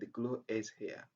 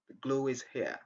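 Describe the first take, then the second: First: Glue and is are said with no glide. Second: A w-like glide links glue and is. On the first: The speaker calls it wrong. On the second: The speaker calls it right.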